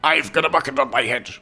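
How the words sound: It is said in a Soldier impression.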